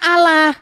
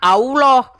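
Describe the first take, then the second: First: The vowels sound like plain 'a' sounds. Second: The vowels sound like 'au' and 'o'. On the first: The speaker calls it right. "Ini kan bacanya Allah" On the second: The speaker calls it wrong. "Kalau Allah tulisannya kan A U O L O H"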